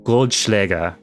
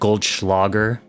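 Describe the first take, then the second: First: The word is said with a German pronunciation. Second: The word is said with an American pronunciation. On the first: The speaker calls it right. "There's your German pronunciation for the day" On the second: The speaker calls it wrong. "as I think most Americans say it"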